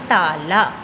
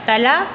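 First: The first vowel is long. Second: The first vowel is short. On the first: The speaker calls it right. "Correct word is ताला" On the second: The speaker calls it wrong. "तला तो wrong है"

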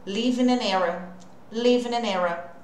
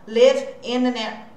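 First: The words run together with no break between them. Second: The words are split with a break between vowels. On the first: The speaker calls it right. "É aí que tá toda a junção grudada" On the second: The speaker calls it wrong. "senão eu vou ter que pausar"

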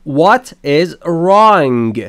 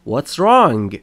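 First: The word is is said in full. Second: The word is is shortened to an s sound.

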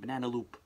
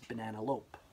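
First: The last word rhymes with hoop. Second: The last word rhymes with hope. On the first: The speaker calls it wrong. "I was saying it wrong the whole time" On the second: The speaker calls it right. "It's banana loop"

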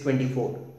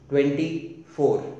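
First: The number is said smoothly without a pause. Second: There is a slight pause between the parts. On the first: The number is treated as a single whole. The speaker calls it wrong. "you don't speak numbers all together. Like I don't say to myself it is 24" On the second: The number is treated as separate parts to double. The speaker calls it right. "Just give a slight pause between the two"

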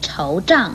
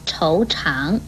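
First: The second syllable is zhang with a falling tone. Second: The second syllable is chang with a rising tone. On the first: "不可以念惆胀" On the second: "或惆长"

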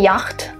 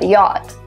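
First: The CH sound is pronounced in the word. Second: The CH sound is silent in the word. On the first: The speaker calls it wrong. "Not a yacht" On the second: The speaker calls it right. "but yacht. ... two letters, CH, that are not pronounced"

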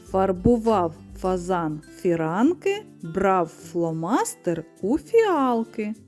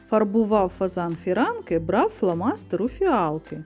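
First: It is said slowly and deliberately. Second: It is said at a quick, normal pace. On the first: "А тепер повільно" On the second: "послухайте скоромовку"

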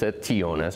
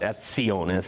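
First: The t before i sounds like plain t. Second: The t before i sounds like ts. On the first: The speaker calls it right. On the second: The speaker calls it wrong. "it's the T before I, it's not"

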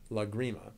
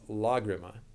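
First: The stress falls on the second syllable. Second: The stress falls on the first syllable. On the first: The speaker calls it wrong. "not Lagrima. I've definitely heard people say it the other way" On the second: The speaker calls it right. "there's actually an accent over the first A, so it's Lagrima"

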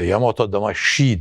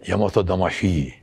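First: The 'shi' has a full, clear 'sh' sound. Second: The 'shi' has a sound between 'sh' and 'h'. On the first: The speaker calls it wrong. "tam doğru telaffuz yani Yamato Damashii değil" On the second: The speaker calls it right. "Hi değil, ikisi arası bir ses"

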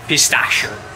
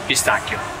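First: The word is said with an American pronunciation. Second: The word is said with an Italian pronunciation.

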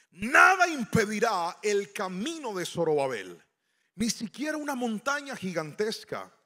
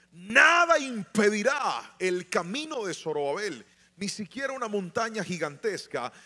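The two takes are said the same way.

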